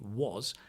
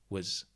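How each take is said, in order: First: The word is said in its full form. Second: The word is squeezed into a reduced form. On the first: "the auxiliary was" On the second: "gets squeezed into was"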